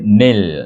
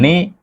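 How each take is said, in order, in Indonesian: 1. Suku kata berakhir dengan bunyi l yang jelas. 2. Suku kata berakhir pada vokal, tanpa l. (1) "tapi nil" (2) "bukan ni"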